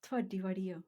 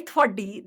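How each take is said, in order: First: Soft, gentle demonstration; softly spoken, careful not to sound like swearing; delicate. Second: Louder mock-angry demonstration; punched out as a mild mock curse; swearing tone. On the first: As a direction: say it delicately, well under normal volume. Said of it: "Say it delicately". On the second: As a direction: say it forcefully, like a swear word. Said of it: "that means you're swearing still". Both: Shown as a demonstration.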